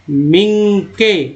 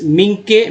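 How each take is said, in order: First: मिंके drawn out slowly, syllable by syllable; sounding out slowly. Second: Said in the usual way. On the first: Shown as a demonstration. Teacher to students reading a word, slow syllable-by-syllable sounding out. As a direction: stretch मिंके out slowly for the learner. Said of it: "मिंके के बाद next है मिंक्स". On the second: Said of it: "मिनिक्स, मिंके".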